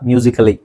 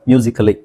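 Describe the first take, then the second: No difference in how they are said.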